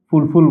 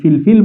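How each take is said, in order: First: Both syllables have the vowel 'u'. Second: Both syllables have the vowel 'i'. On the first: "ফুলফুল বলতে পারি" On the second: "এটির উচ্চারণ আমরা দুইভাবে করতে পারি, ফিলফিল বলতে পারি"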